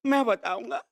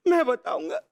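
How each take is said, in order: First: Low-key, restrained vow; volunteer the truth in a held-back voice; grave declaration. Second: Raised, more urgent vow; insistent declaration. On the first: Servant offers his boss the truth, grave. First take of a repeated declaration. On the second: Servant insists on telling the truth, insistent. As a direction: push to be heard. Second take, escalating declaration. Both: Acted.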